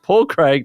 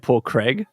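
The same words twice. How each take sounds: First: The name is said in an Australian accent. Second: The name is said in an American accent.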